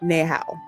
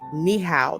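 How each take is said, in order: First: Hello is pronounced the Cantonese way. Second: Hello is pronounced the Mandarin way. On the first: "I think that's how you say hello" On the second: "I think Mandarin is ni hao"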